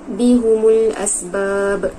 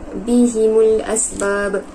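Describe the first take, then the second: First: The vowel after the h is u. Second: The vowel after the h is i. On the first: "apabila didhammahkan" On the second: "terdapat huruf yang berbaris bawah"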